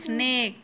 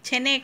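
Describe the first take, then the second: First: It begins with a tight sn consonant cluster. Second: A vowel splits the opening consonants apart. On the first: The speaker calls it right. "হ্যাঁ স্নেক" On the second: The speaker calls it wrong. "ছেনেক না"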